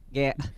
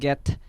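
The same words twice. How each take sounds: First: The final t sound is cut off. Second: The final t sound is fully pronounced. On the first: The speaker calls it right. "you have to cut the t" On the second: The speaker calls it wrong. "instead of"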